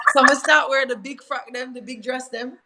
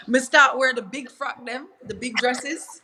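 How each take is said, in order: First: Jamaican patois, a bit louder. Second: Jamaican patois, lightly rising. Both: Real, not acted. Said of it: "my Jamaican accent coming out".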